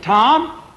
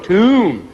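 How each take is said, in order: First: The vowel is short, rhyming with bomb. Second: The vowel is a long oo, rhyming with room. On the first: The speaker calls it wrong. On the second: The speaker calls it right. "No, tomb"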